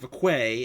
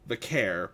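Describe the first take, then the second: First: The name ends in an open vowel. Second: The name ends with an r sound. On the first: The speaker calls it wrong. "not Vaquay, as Nikki Bella mispronounced it" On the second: The speaker calls it right.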